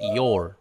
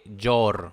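First: The word starts with a soft i glide. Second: The word starts with a harder consonant sound. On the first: The speaker calls it right. "se dice your" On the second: The speaker calls it wrong. "no se dice your"

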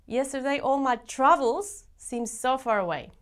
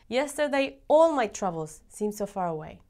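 First: The word 'my' is stressed. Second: The word 'all' is stressed.

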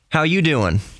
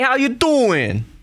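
First: It is said in a neutral American accent. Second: It is said in a strong New York accent. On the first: "if you just heard me speaking just like this" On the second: "One, New York"

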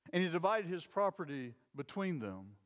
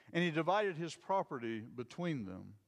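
No difference in how they are said.

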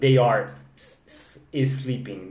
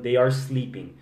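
First: An extra e vowel comes before sleeping. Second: Sleeping starts directly with the s sound. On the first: The speaker calls it wrong. "essa pessoa não é nativa, porque senão ela não ia estar falando they are sleeping" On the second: The speaker calls it right. "Eles estariam falando they are sleeping"

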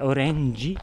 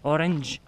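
First: The word ends in a vowel sound. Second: The word ends in a consonant sound. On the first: The speaker calls it right. "Quindi è orange" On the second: The speaker calls it wrong. "orange con la G finale non funziona"

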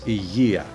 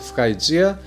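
First: It is said with a Greek pronunciation. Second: It is said with an English-style pronunciation. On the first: The speaker calls it right. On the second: The speaker calls it wrong.

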